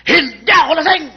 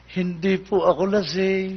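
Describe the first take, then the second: First: Put-on loud, high-pitched drunk's denial; acted belligerent drunk protesting; bold defiance. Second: Slow, drawn-out polite denial; acted drunk being oh-so-gentle with the cop; meek and well-behaved. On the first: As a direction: stand up to the cop, raised voice. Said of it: "Ba, matapang ah". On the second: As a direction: plead innocence softly and slowly. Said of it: "Aba, mabait naman to".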